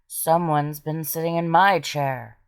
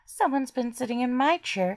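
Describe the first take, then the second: First: It is said in a deep, big voice. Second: It is said in a high, squealing voice.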